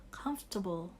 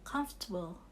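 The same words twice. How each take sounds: Both takes have the same delivery.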